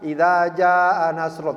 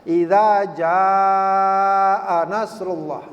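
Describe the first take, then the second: First: The vowel in 'jaa' is held only briefly. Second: The vowel in 'jaa' is held much longer. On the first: The speaker calls it wrong. "panjang tapi cuma dua harkat ... Itu salah" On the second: The speaker calls it right. "jaa itu harus lima atau enam harkat. Jadi lebih panjang lagi"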